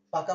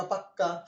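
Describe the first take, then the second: First: Said in the usual way. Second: পাক্কা with a double k; doubled consonant. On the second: Shown as a demonstration. Teacher recapping what got doubled, পাক্কা with long k. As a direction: hold the k in পাক্কা before releasing. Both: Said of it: "double হয়ে গেল".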